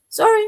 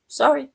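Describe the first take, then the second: First: Loud, high, hammed-up sorry; mock apology. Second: A touch louder, lightly dismissive sorry; mock apology. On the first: Refusing friends' requests for help, a loud high mock apology. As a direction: toss it off loud and high like a door slamming. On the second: Refusing friends' requests for help, lightly dismissive. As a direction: brush them off with a quick sorry. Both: Turning away people asking help.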